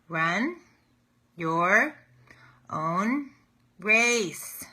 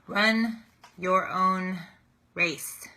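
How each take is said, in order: First: The phrase is said even more slowly. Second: The phrase is said slowly. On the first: "Let me say it slower" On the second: "I say that very slowly"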